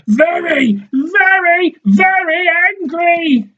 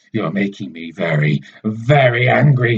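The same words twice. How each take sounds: First: Much higher, louder, slow mocking copy; mocking high echo. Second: Said in the usual way. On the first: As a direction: mimic his anger in a squeaky taunt. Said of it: "she says". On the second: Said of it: "he says".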